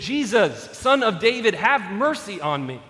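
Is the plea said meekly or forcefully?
forcefully. It is said forcefully and demandingly.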